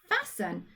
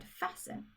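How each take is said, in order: First: Fasten with a plain s, silent t; fasten, t left silent; careful pronunciation. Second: Fasten whispered, ending -en clear; whispered sounding. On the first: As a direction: say fasten as fas-en, no t. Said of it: "tricky at the end". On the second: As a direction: breathe fasten softly, stress the -en ending. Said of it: "the n at the end is an E and an N". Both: Shown as a demonstration.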